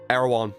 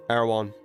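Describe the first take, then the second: No difference in how they are said.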